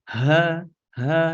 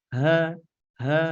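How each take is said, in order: No difference in how they are said.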